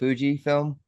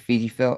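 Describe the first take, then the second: First: The first vowel sounds like 'oo'. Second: The first vowel sounds like 'ee'. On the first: This is how the speaker says it. "I say it Fuji film" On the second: This is how other people say it. "Others say Fiji film"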